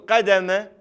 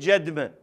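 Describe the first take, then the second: First: The word begins with a hard q sound. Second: The word begins with a j sound. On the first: "بدل ما يقول قدمة" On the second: "يصحفون القاف إلى جيم"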